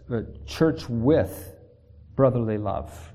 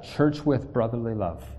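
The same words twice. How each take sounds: First: Church with brotherly love, drawn out slowly, each word weighed; slow emphasis. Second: Said in the usual way. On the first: Shown as a demonstration. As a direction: lay it down slowly so they remember. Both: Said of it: "Remember, remember that".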